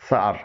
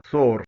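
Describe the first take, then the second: First: سار said with open "aa"; correct sour pronunciation. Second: سور said "sore"; common mispronunciation. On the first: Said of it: "اس کی درست pronunciation ہے". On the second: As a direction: round o in سور. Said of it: "جو غلط pronunciation ہے". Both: Shown as a demonstration.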